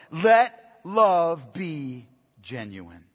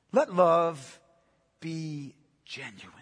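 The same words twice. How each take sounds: First: Each word slow and weighty, "Let" stressed; slow solemn reading. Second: "Let love", a pause, then "be genuine" fading much softer; paused repetition. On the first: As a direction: read the verse very slowly, lower, like scripture. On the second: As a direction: repeat it with a pause and let it die away. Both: Shown as a demonstration. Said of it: "Paul writes here to us".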